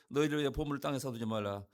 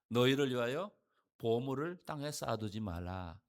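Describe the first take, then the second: First: It is read quickly. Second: It is read slowly.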